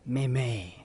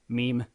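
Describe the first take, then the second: First: It is said with a French accent. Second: It is said with a plain English accent.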